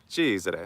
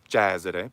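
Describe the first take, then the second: First: The E vowel is closed. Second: The E vowel is open. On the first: The speaker calls it right. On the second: The speaker calls it wrong.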